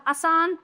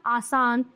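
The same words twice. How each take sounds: First: आसान with a short first vowel, raised pitch; आसान said as "asaan", pitched up; wrong pronunciation. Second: आसान with a long opening "aa"; आसान said as "aasaan", settling lower; correct pronunciation. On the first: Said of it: "ये भी गलत है, ये सही है". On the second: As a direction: open आसान on a full long vowel. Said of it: "ये सही है". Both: Shown as a demonstration.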